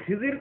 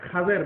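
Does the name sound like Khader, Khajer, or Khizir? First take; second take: Khizir; Khajer. First: The name is said as Khizir. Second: The name is said as Khajer. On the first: The speaker calls it wrong. "উচ্চারণটা আসলে ভুল" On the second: The speaker calls it right. "এর আসল উচ্চারণ"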